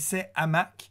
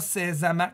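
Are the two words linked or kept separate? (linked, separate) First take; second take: separate; linked. First: The two words are kept apart without linking. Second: The two words are joined with a linking sound. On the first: The speaker calls it right. "c'est ses hamacs" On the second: The speaker calls it wrong. "on dit pas ses hamacs"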